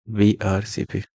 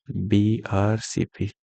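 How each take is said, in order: First: Said in the usual way. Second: Slow, drawn-out mnemonic for students; slow acronym drill. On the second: Shown as a demonstration. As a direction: spell the letters out slowly. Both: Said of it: "black red colour poetry".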